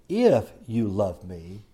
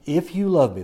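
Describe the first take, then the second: First: "If" drawn out slowly, rising; the word "If" weighted, slow and rising; stress on if. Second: Said in the usual way. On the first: Shown as a demonstration. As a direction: lean on "If", slow. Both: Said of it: "if" is an important word".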